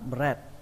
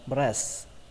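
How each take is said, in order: First: The s sound before the final t is missing. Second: The final t sound is missing. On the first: Listeners would not understand the word at all. "Nếu như không có âm sờ này là nó hoàn toàn sai" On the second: Listeners might still partly understand the word. "Nếu như các bạn bỏ âm T đi"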